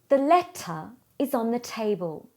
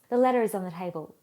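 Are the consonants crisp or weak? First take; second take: crisp; weak. First: The consonants are released with strong pressure. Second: The consonants are released with little pressure. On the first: The speaker calls it right. "you heard increased pressure on the consonant sounds" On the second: The speaker calls it wrong. "We lost consonant pressure"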